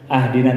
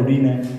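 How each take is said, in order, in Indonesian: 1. Kata itu diawali vokal a. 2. Kata itu diawali vokal u. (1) "Belum pernah ibu bapak mendengar imam memacana ah dina" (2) "atau udina"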